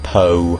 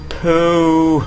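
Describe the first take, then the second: First: The vowel is an 'oh' sound. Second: The vowel is a long 'oo' sound. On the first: The speaker calls it right. "I say like po" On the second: The speaker calls it wrong. "it's not pronounced that way"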